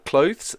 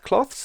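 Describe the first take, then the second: First: It is said like 'clothes', with a long vowel. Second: It is said like 'cloths', with a short vowel. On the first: The speaker calls it right. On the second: The speaker calls it wrong.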